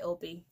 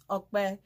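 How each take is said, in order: First: The p is said as a plain English p. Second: The p is said with the Yoruba kp sound. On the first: This is the easier form for others to use. "but I just go by Opie" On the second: This is the native short form. "the shortened version of my name is Okbe"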